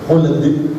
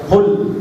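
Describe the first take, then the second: First: It ends with a short vowel echo. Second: It ends without a short vowel echo. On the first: The speaker calls it right. "tapi khuld" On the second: The speaker calls it wrong. "tidak khuld"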